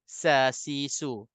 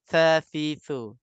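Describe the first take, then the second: First: The syllables start with a hissing s sound. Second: The syllables start with a th sound. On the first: The speaker calls it wrong. "Kalau huruf tha kalau tak keluar lidah dia akan jadi huruf sin" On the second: The speaker calls it right. "Kalau keluar lidah aja"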